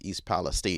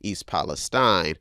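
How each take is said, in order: First: The last syllable sounds like 'teen'. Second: The last syllable sounds like 'tine'. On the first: This follows where the word originated. "others you'll probably hear they're saying that the correct thing is" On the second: This is the American way of saying it. "because I'm from America and we we do speak a, a different type of English, I will say"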